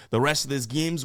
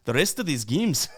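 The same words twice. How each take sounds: First: Said in the usual way. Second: The rest of these games in a jokey put-on Irish lilt, rising at the end; hammed-up vague Irish brogue on a throwaway question; goofy mock Irish accent. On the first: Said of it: "Did I say games?". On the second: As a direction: toss the line off in a random silly Irish accent. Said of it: "I don't even know what accent that is. Irish?".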